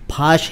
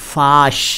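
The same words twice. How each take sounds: First: The first sound is an aspirated p. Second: The first sound is a soft f. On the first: The speaker calls it wrong. "फाश ही सुनाई दिया मुझे" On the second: The speaker calls it right. "होना चाहिए फाश, फे अलिफ शीन"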